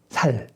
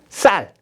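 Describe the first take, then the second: First: The first consonant is a plain s. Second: The first consonant is a tense s. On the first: The speaker calls it wrong. "살로 말하는 사람은 다 죽었어" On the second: The speaker calls it right. "발음이 안 되는 게 하나 있죠"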